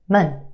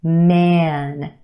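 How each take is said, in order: First: The vowel is reduced to a quick schwa. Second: The vowel is a full, clear vowel.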